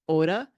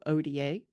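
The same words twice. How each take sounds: First: The letters are named with Spanish letter sounds. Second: The letters are named with English letter sounds. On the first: This is how the group itself says it. "or as they say" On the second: This is how people in the United States say it. "In the United States, we tend to go"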